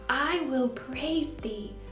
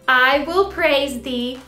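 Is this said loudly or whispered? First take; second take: whispered; loudly. First: The words are whispered very softly. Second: The words are said very loudly. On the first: "this time, let's whisper" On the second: "let's say it in a loud voice"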